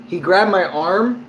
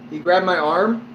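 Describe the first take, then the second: No difference in how they are said.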